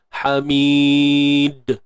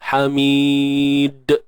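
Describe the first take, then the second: First: The final d is followed by an e vowel. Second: The final d bounces with no added vowel. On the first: The speaker calls it wrong. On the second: The speaker calls it right.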